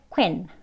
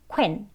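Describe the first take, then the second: The two takes are said the same way.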